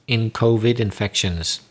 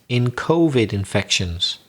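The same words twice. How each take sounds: Both takes have the same delivery.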